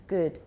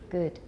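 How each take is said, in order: Both takes have the same delivery.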